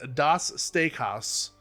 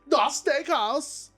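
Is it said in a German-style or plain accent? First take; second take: plain; German-style. First: It is said in a plain, ordinary accent. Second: It is said in an exaggerated German-style accent. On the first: This is the proper pronunciation. "is what I think it's pronounced as" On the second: This is the fun way to say it. "I want to say it as Das Steakhouse"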